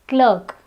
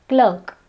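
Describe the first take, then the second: No difference in how they are said.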